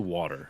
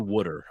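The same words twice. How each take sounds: First: It is said in a standard American accent. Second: It is said in a strong Philadelphia accent.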